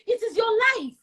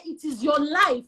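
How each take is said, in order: First: It is your life, high and firm; insistent. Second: It is your life, slower and deliberate; slower repeat. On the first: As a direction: press the point home. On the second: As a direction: let each word land. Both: Real, not acted.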